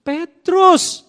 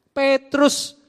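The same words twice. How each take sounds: First: Higher and louder, announce the name Petrus; exclaimed answer. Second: Said in the usual way. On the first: Shown as a demonstration. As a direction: call out Petrus like a big reveal. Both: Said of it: "jadi apa?".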